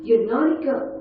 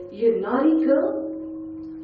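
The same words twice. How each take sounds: First: Higher, sharper repeat of the scolding; naughty punched; scolding nurse. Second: Slow, higher, drawn-out tut-tut; naughty drawn out slowly with a rise; scolding nurse. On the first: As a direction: scold her a second time, pressing harder. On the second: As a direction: chide her like a disappointed nurse. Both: Retold or imitated. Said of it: "She goes".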